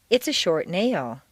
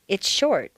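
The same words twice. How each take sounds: First: NAIL stressed and falling, "short" lighter; stress on the noun. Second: SHORT carries the stress, then falls; stress on the adjective. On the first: Teacher modelling descriptive phrases, stress on "nail". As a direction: move the weight from "short" onto "nail". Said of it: "stress will always fall naturally on the noun". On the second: Teacher modelling sentence stress for learners, stress on "short". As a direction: put the weight on "short". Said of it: "you'll stress the adjective". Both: Shown as a demonstration.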